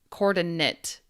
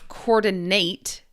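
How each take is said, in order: First: The last syllable has a short I vowel. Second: The last syllable has a long A vowel. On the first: It is used as a noun. "more like a short I sound" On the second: It is used as a verb. "as a verb, coordinate, long A"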